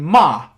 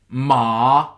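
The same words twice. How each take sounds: First: The pitch falls sharply from high to low. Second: The pitch dips down then rises again. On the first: "which is from high to low" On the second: "which is the falling rising. So you go down and then you go back up"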